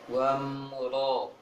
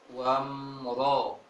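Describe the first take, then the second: First: The vowel is heavy and only slightly rounded. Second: The same.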